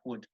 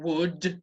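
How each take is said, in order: First: The word is said quickly, with a weak vowel. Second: The word is said fully, with a strong vowel. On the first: The speaker calls it right. "it's like would. It's a very fast sound" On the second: The speaker calls it wrong. "it's not would"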